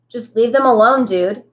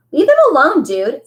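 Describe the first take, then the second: First: Steady, calmer repeat. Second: High, loud order to back off; firm call. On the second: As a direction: call out to stop the fight. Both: A narrator's reading. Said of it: "Amos repeated calmly".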